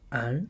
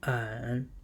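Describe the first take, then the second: First: The pitch rises from middle to high. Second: The pitch dips low and comes back up.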